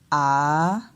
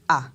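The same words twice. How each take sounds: First: The vowel's pitch dips and then rises. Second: The vowel is said on a low pitch. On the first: "on descend et après on monte" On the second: "on va descendre avec l'intonation"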